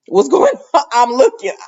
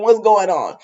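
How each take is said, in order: First: High, loud nosy question breaking into a laugh; giggling what's going on. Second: Said in the usual way. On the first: Retold or imitated. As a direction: laugh while being nosy. Cop nosily listening in.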